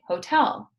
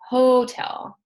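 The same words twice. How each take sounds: First: The stress is on the second syllable. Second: The stress is on the first syllable. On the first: The speaker calls it right. "We say hotel" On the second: The speaker calls it wrong. "We do not say hotel"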